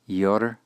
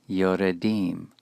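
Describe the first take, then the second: First: The schwa is silent, giving two syllables. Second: The schwa is voiced, giving three syllables. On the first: The speaker calls it wrong. "not yordim" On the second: The speaker calls it right. "Once again, this will be vocal"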